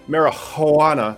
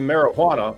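First: The middle H sound is strong and breathy. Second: The middle H sound is soft and ordinary.

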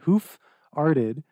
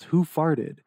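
First: The phrase is said slowly and separately. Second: The phrase is said quickly and run together.

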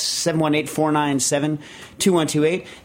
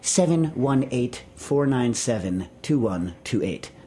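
First: The number is said casually, without extra care. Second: The number is said with careful, crisp enunciation.

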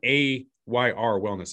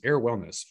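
First: The first word does not sound like 'air'. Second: The first word sounds like 'air'. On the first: The speaker calls it wrong. "It's not AYR Wellness" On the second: The speaker calls it right. "that's how you pronounce it"

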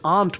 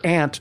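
First: It uses the refined-sounding pronunciation of the word. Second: It uses the rural-sounding pronunciation of the word. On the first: It would be judged the more proper pronunciation. "considered by the snobs to be the more appropriate pronunciation" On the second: It would be judged a country pronunciation. "a more rural and country pronunciation"

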